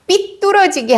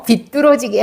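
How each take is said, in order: First: It begins with a tense pp sound. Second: It begins with a plain b sound. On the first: The speaker calls it wrong. "삐뚤어지게 아니고요" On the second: The speaker calls it right. "비뚤어지게 하였어"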